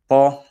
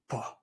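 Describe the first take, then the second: First: The syllable has a high level tone. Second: The syllable falls with a breathy voice. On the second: "the falling breathy tone"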